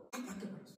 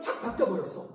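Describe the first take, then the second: First: Almost whispered, very soft repeat; barely voiced, under the breath; hushed echo. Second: Full-voiced testimony, stress on 확; emphatic declaration. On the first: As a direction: drop to a near-whisper as an aside. Hushed echo of the line before. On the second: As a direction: punch 확 with force, then drive through 바뀌어버렸어. Testifies to sudden change, then echoes it. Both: Real, not acted.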